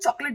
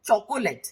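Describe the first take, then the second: First: The middle o is dropped, two syllables. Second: The middle o is said, three syllables. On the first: "थोड़ा आराम से बोलेंगे तो हम चॉकलेट बोल देते हैं" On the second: "it is चॉकोलेट"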